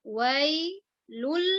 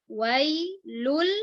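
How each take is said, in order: No difference in how they are said.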